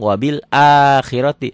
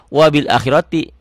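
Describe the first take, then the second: First: The first vowel of akhirati is long. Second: The first vowel of akhirati is short. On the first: "Berarti ini bunyinya A-nya panjang" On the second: "pemula yang baru belajar pakai cetakan Timur Tengah akan baca wabil akhirati. Karena A-nya nggak ada pemanjangnya"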